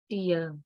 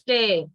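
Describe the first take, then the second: First: It is pronounced like the noun tear. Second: It is pronounced like the verb tear. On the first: It names a drop from the eye. The speaker calls it wrong. "you are pronouncing like tear. But tear is noun" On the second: It means to pull something apart. The speaker calls it right. "It is used as a verb. But in this case, tear"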